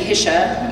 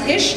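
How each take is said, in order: First: The name is said with a German pronunciation. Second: The name is said the plain American way. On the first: This is how the German ancestors would say it. "then it should be Hische, which sounds way fancy" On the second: This is how the speaker herself says it. "It's pronounced Hish"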